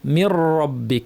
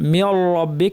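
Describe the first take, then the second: First: The r sound is pure with no l. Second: The r sound has an l sound mixed in. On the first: The speaker calls it right. "রটা হবে পিওর র ... লামের কোনো রেশ মাত্র নাই" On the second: The speaker calls it wrong. "এই আওয়াজটা হচ্ছে রয়ের সাথে লাম মিশে আছে"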